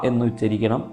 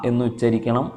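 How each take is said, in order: The two takes are said the same way.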